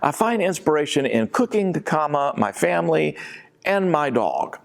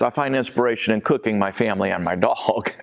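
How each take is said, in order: First: There is a clear break after cooking. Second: It runs on with no break after cooking.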